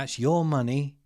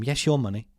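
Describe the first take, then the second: First: "your" stressed with a rising tune. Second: "your" leaned on, falling; stress on your. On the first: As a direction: lift "your" as the key word. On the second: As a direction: hammer the word "your". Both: Shown as a demonstration. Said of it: "I'm gonna keep saying that".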